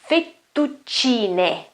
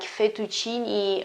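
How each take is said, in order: First: The t sound is long, ending in 'eh'. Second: The t sound is short, ending in 'ee'. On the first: The speaker calls it right. "That's the only way to say that in Italian" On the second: The speaker calls it wrong. "written in a completely wrong way with just one T and uh, an I, okay, at the end of the word, like fettuccine or something. It's wrong"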